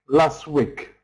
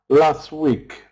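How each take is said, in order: Both takes have the same delivery.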